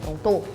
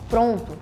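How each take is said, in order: First: The stress is on the last syllable. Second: The stress is on the first syllable. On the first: "It's just the to is stronger" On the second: "instead of saying pronto"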